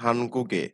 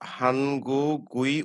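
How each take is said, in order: First: The last syllable is said as 'e'. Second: The last syllable is said as 'ui'. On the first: The speaker calls it right. "কি করব আমরা উচ্চারণ?" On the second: The speaker calls it wrong. "এখানে আমরা হানগু গুই উচ্চারণ করব না"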